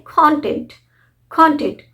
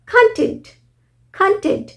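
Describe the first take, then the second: First: कंटेंट as KON-tent with an o up front; o sound. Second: कंटेंट as kuhn-TENT, high on TENT; short uh sound. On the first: Teacher shows the noun's pronunciation, KON-tent for कंटेंट. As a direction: stress the first syllable KON in कंटेंट. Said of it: "उस time pronounce करते हैं". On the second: Teacher shows content as satisfied, kuhn-TENT for कंटेंट. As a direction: open कंटेंट with a short uh, then hit TENT. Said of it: "अ, ख, अ". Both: Shown as a demonstration.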